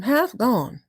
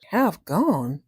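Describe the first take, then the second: First: Higher, sure statement of a name; matter-of-fact announcement. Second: Incredulous echo. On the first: Cat telling mouse the kitten's name, casual and sure. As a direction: state the strange name as perfectly ordinary. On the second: Mouse doubting the kitten's odd name, baffled. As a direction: echo it slowly sinking in, unconvinced. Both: Acted.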